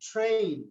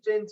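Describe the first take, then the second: First: The word is said with an English-style pronunciation. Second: The word is said with a Bengali-style pronunciation. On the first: The speaker calls it right. "No, ট্রেন" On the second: The speaker calls it wrong. "Bangla যে ট্রেন লিখি"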